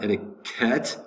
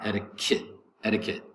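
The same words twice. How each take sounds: First: "etiquette" ending in -ket, with an open E; E in last syllable. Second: "etiquette" ending in -kit. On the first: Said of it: "not etiquette with an E". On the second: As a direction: say the last syllable of "etiquette" with a short I. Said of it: "pronounce the E like an I". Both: Shown as a demonstration.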